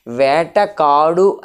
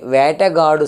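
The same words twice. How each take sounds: First: "వేటకాడు" with a hard k starting the second part; unvoiced K pronunciation. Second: "వేటగాడు" with k softened to g; softened G pronunciation. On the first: Teacher showing the harder form to students, "వేటకాడు" with hard k. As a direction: say "వేటకాడు" slowly, keeping the k sound in కాడు. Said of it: "అని పలకడం కంటే వేటగాడు". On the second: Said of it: "సులభం కాబట్టి వేటగాడే అంటాం". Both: Shown as a demonstration.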